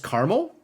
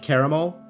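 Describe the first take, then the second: First: The word is said with two syllables. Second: The word is said with three syllables. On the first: This is the pronunciation in the rest of the country. "rest of U S is caramel" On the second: This is the East Coast pronunciation. "East Coast is trisyllabic caramel"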